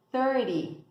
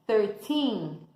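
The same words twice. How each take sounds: First: "thirty" with a stressed first syllable and a short "ty". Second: Put-on "thirteen" with a long stressed "teen". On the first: Teacher contrasts "thirty" with "thirteen" for students. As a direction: punch "thir" in "thirty". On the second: Teacher contrasts "thirteen" with "thirty" for students. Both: Shown as a demonstration. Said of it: "pra você ouvir a diferença".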